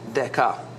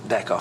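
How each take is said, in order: First: It is pronounced the Greek way. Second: It is pronounced the ordinary English way. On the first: "I pronounced it in a Greek fashion" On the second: "Probably just deca for anybody else"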